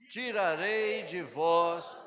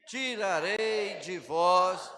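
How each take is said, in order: No difference in how they are said.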